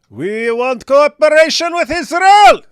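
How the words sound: It is read in a put-on character voice.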